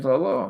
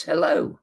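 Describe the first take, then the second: First: Said in the usual way. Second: Put-on light English accent on a polite hello; a hint of a suave English gentleman greeting; Cary Grant English accent. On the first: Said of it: "And I said". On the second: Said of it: "sort of English accent says".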